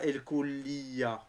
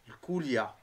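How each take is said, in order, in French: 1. Une voyelle 'ee' s'entend juste après le L. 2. Le L enchaîne directement sur 'ya' sans 'ee'. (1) "pas El Koulia" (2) "il n'y a pas un I après le L"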